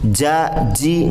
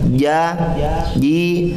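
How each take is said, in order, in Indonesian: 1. Udara keluar terdengar saat mengucapkan bunyi j. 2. Bunyi j ditahan tanpa udara keluar. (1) "nggak boleh" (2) "tapi ja, ji"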